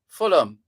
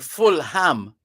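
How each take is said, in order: First: The h sound in the middle is silent. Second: The h sound in the middle is pronounced. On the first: The speaker calls it right. "you don't pronounce the H" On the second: The speaker calls it wrong. "You don't go out of your way to say"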